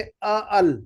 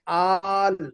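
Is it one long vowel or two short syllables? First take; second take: two short; one long. First: Two short separate syllables are said. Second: One merged syllable with a long vowel. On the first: The speaker calls it wrong. "यूँ नहीं कहेंगे कि अ अल" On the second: The speaker calls it right. "लंबी आवाज़ खींचेंगे आ करके"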